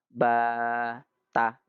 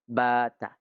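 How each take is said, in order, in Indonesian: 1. Vokal panjangnya dipanjangkan sangat panjang. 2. Vokal panjangnya ditahan dengan panjang yang biasa. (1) "Akhirnya dia baca lebih panjang" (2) "Kadarnya dua harokat"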